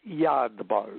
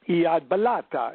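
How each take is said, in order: First: The second word is clipped short. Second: The second word has extra vowels added. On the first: It follows the original written source. "keep pretty close to the words as they appear" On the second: It follows a later magical tradition. "the Golden Dawn way ... it sounds Italian"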